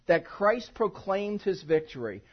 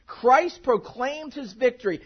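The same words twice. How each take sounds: First: Slow, each word weighted; slow emphatic point. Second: Slow, louder, stress on Christ; louder emphatic repeat. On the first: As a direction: lay the sermon point down slowly. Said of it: "I want you to see the second point". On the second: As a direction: drive it home, louder the second time. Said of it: "and here it is". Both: Shown as a demonstration.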